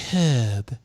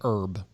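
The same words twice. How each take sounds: First: The word starts with an h sound. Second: The word starts without an h sound. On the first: "they thought it was more sophisticated to say the H" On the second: "they don't like us using the word herb"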